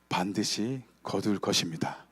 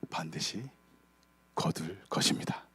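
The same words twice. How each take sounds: First: It is said about twice as loud. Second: It is said at a normal, quieter volume.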